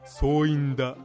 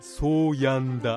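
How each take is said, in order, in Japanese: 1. 真ん中の音節は'i'で言う。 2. 真ん中の音節は'ya'で言う。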